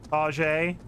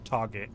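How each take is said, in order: First: The word ends with a soft 'zhay' sound. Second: The word ends with a hard 'get' sound.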